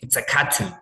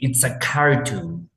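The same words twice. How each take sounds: First: It has a British accent, with the R dropped. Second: It has an American accent, with the R sounded. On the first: "But with British, they just say it's a cartoon" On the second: "With American accent we say it's a cartoon"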